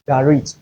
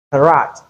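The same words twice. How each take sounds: First: Garit for garage, GA-ridge; second garage variant. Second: Karat for garage, ga-RAAZH; first garage variant. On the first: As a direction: say garit with short "idge" ending. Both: Shown as a demonstration. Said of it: "it has two pronunciations".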